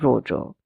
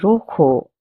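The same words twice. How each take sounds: First: The middle consonant is not an h sound. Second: The middle consonant is a breathy h sound. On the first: The speaker calls it wrong. "and not rojo" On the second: The speaker calls it right. "The J's pronunciation will be h, a soft k. That's why we say rojo"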